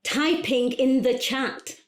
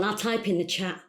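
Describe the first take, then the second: First: Higher, slow and spaced out; slow, emphatic announcing. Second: Said in the usual way. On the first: Acted. Caller telling coach she's typing, slow and emphatic. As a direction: announce each word for someone who can't hear.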